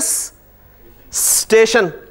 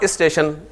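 First: The word starts directly with the st cluster. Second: An i vowel is added before the st cluster. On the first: "लेकिन आप देखें ना स्टेशन" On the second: "इसके शुरू में इसे pronounce करने के लिए एक आई लगा लिया"

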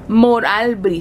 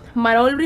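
First: The name begins with the syllables 'Moral'. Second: The name begins with the syllables 'Marol'. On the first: The speaker calls it right. "así no se dice. Moralbri" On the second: The speaker calls it wrong. "Siempre digo Marolbri, yo no sé por qué"

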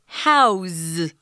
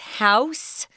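First: The word ends with a Z sound. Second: The word ends with an S sound. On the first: It is used as a verb. "it's pronounced house with a Z sound" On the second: It is used as a noun. "it's house, if it's a noun"

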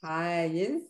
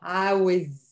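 First: The word is said without a w sound. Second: The word is said with a w sound.

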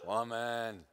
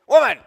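First: It is said in a cool, aloof tone. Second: It is said in an irritated tone.

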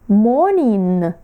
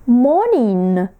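Both takes have the same delivery.

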